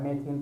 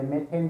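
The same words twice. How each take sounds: First: मेथिन with an "ee" in its last syllable; pronounced "methin". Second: मेथेन with an "e" in its last syllable; pronounced "methen". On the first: Teacher explaining varying English pronunciations, मेथिन said as "me-theen". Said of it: "मेथिन पढ़ लेते हैं कुछ लोग". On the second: Teacher giving the other accepted pronunciation, मेथेन said as "me-then". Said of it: "मेथेन भी बोलते हैं इसको". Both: Shown as a demonstration.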